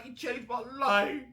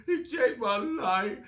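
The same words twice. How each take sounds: First: Higher, wide-eyed mock worship; mock awestruck fan. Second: Higher, slow, drawn-out worshipful gush; slow mock reverence. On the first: Fan gushing over [name]'s bars, mock awestruck. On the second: Fan repeating [name]'s bar, slow mock reverence. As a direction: savour every word like scripture. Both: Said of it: "We look at [name] when he does those bars".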